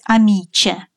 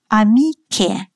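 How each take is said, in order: First: The middle consonant sounds like 'ch'. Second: The middle consonant sounds like 'k'. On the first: The speaker calls it wrong. "Но мы не должны произносить «амиче»" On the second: The speaker calls it right. "Поставить разделительный заборчик"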